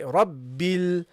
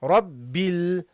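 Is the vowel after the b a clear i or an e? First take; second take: i; i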